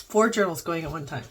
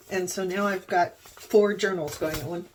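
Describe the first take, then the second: First: Said in the usual way. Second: Talking through hiccups; suppressing hiccups. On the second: Real, not acted. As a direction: hold back a hiccup mid-sentence. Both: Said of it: "sorry, I have hiccups".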